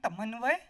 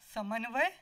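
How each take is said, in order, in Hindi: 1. शब्द 't' ध्वनि से शुरू होता है। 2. शब्द 's' ध्वनि से शुरू होता है। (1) "तोतली जुबान में" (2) "सुमित ये बोलो ना"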